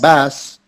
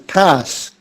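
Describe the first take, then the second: First: The word begins with a B sound. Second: The word begins with a P sound. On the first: The speaker calls it wrong. "saying a B instead of a P" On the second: The speaker calls it right. "So it's pass"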